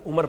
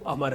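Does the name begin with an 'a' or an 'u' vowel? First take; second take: u; a. First: The name starts with an 'u' vowel. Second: The name starts with an 'a' vowel. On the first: The speaker calls it wrong. "उसे लोग ऐन मीम रे देख कर उमर पढ़ लेते हैं" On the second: The speaker calls it right. "जबकि वो अमर है"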